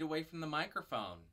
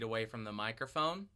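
First: The voice sounds far away and roomy. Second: The voice sounds somewhat farther and roomier. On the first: "about 4 feet away from the microphone" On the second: "2 feet away from the microphone"

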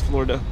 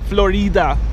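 First: It is said with an American English pronunciation. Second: It is said with a Spanish pronunciation. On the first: "I'm from the US and that's how we pronounce" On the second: "Calle de Florida in Spanish"

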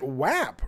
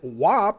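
First: The vowel sounds like the one in 'hat'. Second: The vowel sounds like the one in 'hop'. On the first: The speaker calls it right. "you pronounce it WAP" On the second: The speaker calls it wrong. "you don't pronounce it WAP"

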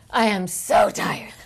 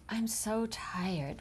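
First: The words are said with high, lively energy. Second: The words are said with low, tired energy. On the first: The actor makes a game out of being tired. The speaker calls it right. "you make a game out of it. You say, ah, I am so tired, like that" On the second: The actor plays the scene tired. The speaker calls it wrong. "which is a boring choice"

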